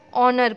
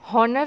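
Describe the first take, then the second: First: The word begins with a vowel, no h. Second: The word begins with an audible h sound. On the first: The speaker calls it right. "ऑनर पढ़ते हैं" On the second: The speaker calls it wrong. "हम हॉनर नहीं पढ़ते"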